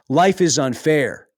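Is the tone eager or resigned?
eager. It is said with an eager, upbeat tone. Unfairness is a welcome challenge. The speaker calls it right.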